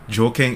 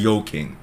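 First: The word begins with a J sound. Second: The word begins with a Y sound. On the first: "when you say you're joking" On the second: "you actually say you're yoking"

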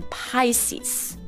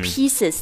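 First: The word is said as the star sign 'Pisces'. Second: The word sounds like the everyday word 'pieces'. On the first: The speaker calls it right. "它念Pisces" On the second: The speaker calls it wrong. "它不念pieces"

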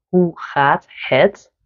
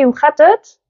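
First: Each word is said fully and separately. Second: The words are shortened and run together. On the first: This is the textbook form. The speaker calls it wrong. "ik zeg ook niet" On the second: This is how people really talk. The speaker calls it right. "wij zeggen... we mompelen, we maken woorden korter"

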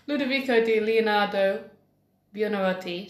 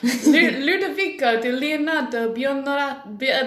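First: The name is said without an Italian accent. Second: The name is said with an Italian accent.

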